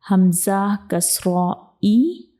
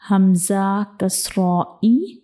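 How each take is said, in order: Both takes have the same delivery.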